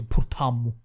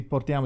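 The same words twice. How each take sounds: First: Portammo with a doubled m, Salentino style; Salentino pronunciation. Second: Said in the usual way. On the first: Retold or imitated. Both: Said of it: "Invece di portiamo, dici portammo".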